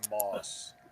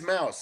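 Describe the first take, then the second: First: The vowel sounds like 'aw' in moss. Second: The vowel sounds like 'ow' in cow. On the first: This is how a relative says it. "so he says Moss" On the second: This is the speaker's own preferred pronunciation. "it's Mouse"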